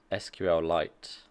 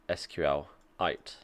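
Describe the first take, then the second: First: Slow "S Q L Lite" ending in a full word Lite; two-word reading. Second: Slow "S Q L ite", ending on "ite" like meteorite; mineral-style ending. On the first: Streamer comparing two ways to say the database name, slow "Lite". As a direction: say "S Q L Lite" slowly, Lite with its L. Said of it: "I guess I say S Q L Lite rather than". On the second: Streamer trying the creator's pronunciation, slow mineral-like "ite". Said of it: "should be pronounced S Q L ite, like a mineral". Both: Shown as a demonstration.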